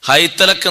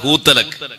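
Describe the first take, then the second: First: The first vowel is the diphthong ai. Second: The first vowel is a long oo. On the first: "ഹൈതലക് എന്നിടത്ത്" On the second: "വേറെ ഖിറാഅത്ത്"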